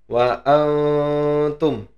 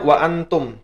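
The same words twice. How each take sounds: First: The n sound is hidden and nasalized, held longer. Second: The n sound is pronounced clearly and fully. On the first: "karena disamarkan ... Maka bacanya wa antum" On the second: "ini bacanya sebenarnya wa antum"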